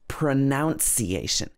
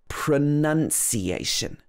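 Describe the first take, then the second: First: The middle syllable sounds like 'nounce'. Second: The middle syllable sounds like 'nun'. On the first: The speaker calls it wrong. "it's not pronunciation" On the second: The speaker calls it right. "It should be pronunciation. So in the middle, we have none"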